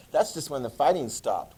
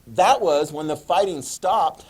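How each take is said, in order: First: Said in the usual way. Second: Loud, slow stress on "That"; slow, forceful delivery, "That" punched; emphatic statement. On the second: Shown as a demonstration. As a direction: hit "That" hard and spread the words out. Emphatic statement, then restated lightly.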